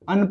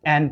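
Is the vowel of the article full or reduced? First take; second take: reduced; full. First: The article is said weakly with a short 'un'. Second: The article is said strongly with a full 'an'. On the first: "वीक sound में क्या पढ़ेंगे, अन पढ़ेंगे" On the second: "strong sound में हम इसको एन पढ़ेंगे"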